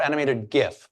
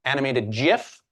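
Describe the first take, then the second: First: "gif" said with a hard g, as in "gift"; hard-g pronunciation. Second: "gif" said with a soft g, like "jif"; soft-g pronunciation. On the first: Host offers the audience the other way, "gif" with hard g. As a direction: start "gif" with the g of "go". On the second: Host offers the audience one way to pronounce it, "gif" with soft g. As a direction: say "gif" starting with a j sound. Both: Shown as a demonstration. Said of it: "pronounce the word".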